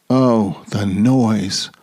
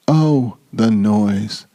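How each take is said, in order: Both takes have the same delivery.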